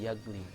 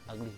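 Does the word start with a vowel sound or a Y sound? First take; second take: Y sound; vowel. First: The word starts with a Y sound. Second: The word starts with a plain vowel sound. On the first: The speaker calls it wrong. "enggak yagly" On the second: The speaker calls it right. "dibacanya ugly"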